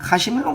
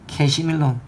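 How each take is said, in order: First: The first vowel is an open 'a' sound. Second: The first vowel is an 'ae' sound.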